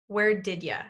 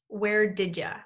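First: It is said as 'where did ya', with 'you' reduced to 'ya'. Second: The same.

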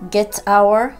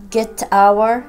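Both takes have the same delivery.

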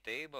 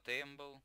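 First: The word is said with no m sound. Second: The word is said with an m sound. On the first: The speaker calls it right. "не тейбл" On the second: The speaker calls it wrong. "а тембл ... я даже ударение неправильно делаю"

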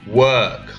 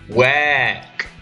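First: The vowel is a plain 'er' sound. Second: The vowel sounds like 'air'. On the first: The speaker calls it right. "instead of work" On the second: The speaker calls it wrong. "a sound like air sound"

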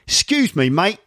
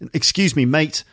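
First: It is said in a Cockney London accent. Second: It is said in a plain standard English accent. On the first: The speaker calls it right. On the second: The speaker calls it wrong.

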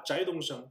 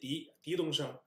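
First: The surname begins with a zh sound. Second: The surname begins with a d sound. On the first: This is the common reading of the surname. The speaker calls it wrong. "我们通识一般都知道他念这个翟啊" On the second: This is how the person's own family name is read. The speaker calls it right. "他这个姓他念狄东升"

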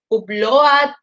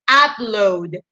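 First: Upload is pronounced with Spanish-style sounds. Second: Upload is pronounced with English sounds. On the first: The speaker calls it wrong. "pronto le dicen eso como upload" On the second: The speaker calls it right. "No, se dice upload"

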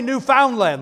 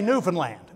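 First: The word is said the way outsiders say it. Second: The word is said the way locals say it. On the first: The speaker is a visitor. The speaker calls it wrong. "You don't say Newfoundland. They know you're a visitor" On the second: The speaker sounds like a local. The speaker calls it right. "You say Newfoundland, okay? You got to say it right"

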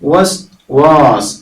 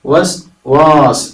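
No difference in how they are said.

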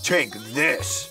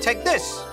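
First: It is said in a menacing, hostile tone. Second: It is said in a warm, friendly tone. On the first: Something bad is about to happen. "depending on his inflection, that really could have been a bad thing" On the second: The item is a kind reward. "He was friendly about it"

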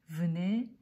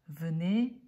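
Both takes have the same delivery.

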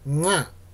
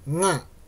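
First: It begins with a soft nasal ng sound. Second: It begins with a soft nasal ng sound.

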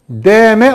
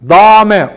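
First: The first vowel is thin and light. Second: The first vowel is fully heavy and thick. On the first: "Deme olmaz" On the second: "Dame olmaz"

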